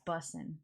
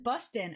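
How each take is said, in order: First: The word has only an s sound in the middle. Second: The word has a t sound in the middle. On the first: The slang said the way young people say it. The speaker calls it right. "don't say that. It's bussin'" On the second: An older person misusing new slang. The speaker calls it wrong. "he just kept saying it's bustin'"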